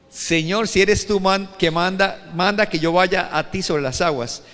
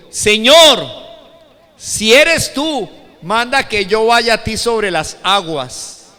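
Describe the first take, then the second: First: Said in the usual way. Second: Very loud, slow, raised-pitch appeal; súplica declamada. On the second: Acted. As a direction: call out Peter's request across the water. Primera lectura declamada de Pedro. (súplica a gran voz, lenta y declamada)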